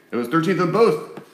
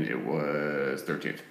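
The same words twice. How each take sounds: First: Said in the usual way. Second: Low, slow, eerie drop; low haunting voice. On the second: Acted. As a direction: let it sink down like a ghost story. Halloween, unlucky number thirteen.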